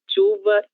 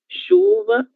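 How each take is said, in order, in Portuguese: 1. O primeiro som é um "ch" forte, como em espanhol. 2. O primeiro som é um som suave, como "sh". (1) "No quiero nadie hablando chuva, chave y cheiro. Esto es en español" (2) "En portugués es un poco más suave"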